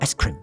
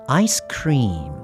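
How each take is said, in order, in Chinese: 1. 'cream' 中的元音要读短。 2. 'cream' 中的元音要读长。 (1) "不要ice cream ice cream，这样就不对了" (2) "它是长母音，所以不要念得太短，大概1 秒钟左右"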